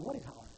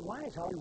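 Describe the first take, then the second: First: "what" as the correction, said low and soft; stress on what. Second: "why" picked out as the wrong question; stress on why. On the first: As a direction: drop the voice and lean on "what". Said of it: "it wasn't why he's hollering". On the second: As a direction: lean on "why", setting up a correction. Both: Acted.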